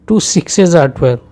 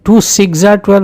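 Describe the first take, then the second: First: सिक्सेस said with the full es syllable, siks-ez; the right way: सिक्सेस, two syllables; teacher giving the correct form; correct plural. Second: सिक्स said as one syllable, no es ending; the mistake: plain सिक्स for the plural; teacher showing what not to say; wrong plural. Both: Shown as a demonstration. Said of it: "नहीं कहेंगे".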